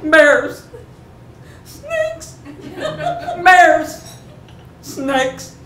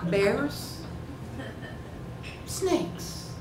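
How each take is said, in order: First: High, urgent one-word cries; alarmed warning calls. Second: Feigned nonchalance, asking softly; casual, offhand. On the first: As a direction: call out each danger sharply. Calls warnings over the barking dog. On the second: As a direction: toss it out as a casual question. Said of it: "I decided that casual and offhand was the right approach". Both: Retold or imitated.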